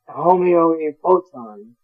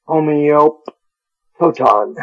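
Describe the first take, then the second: First: "Homoiopoton" said slowly, syllable by syllable; careful pronunciation. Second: "Homeopoton" drawn out very slowly, every syllable separate; very slow pronunciation. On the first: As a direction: sound out "Homoiopoton" with care. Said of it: "There's a P in the middle there that's hard". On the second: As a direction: stretch "Homeopoton" out to get it right. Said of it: "hard for English speakers like me to say". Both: Shown as a demonstration.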